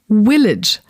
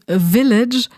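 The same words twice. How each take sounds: First: The word begins with a w sound. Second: The word begins with a v sound. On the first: The speaker calls it wrong. "we will say village, because we're overdoing it" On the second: The speaker calls it right. "instead of saying village"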